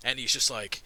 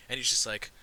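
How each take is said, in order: Both takes have the same delivery.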